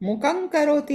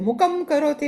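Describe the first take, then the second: First: The first word ends in an ng sound. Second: The first word ends in an m sound. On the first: The speaker calls it right. "છે" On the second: The speaker calls it wrong. "નથી"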